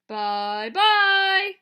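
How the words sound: It is said in a big, gruff voice.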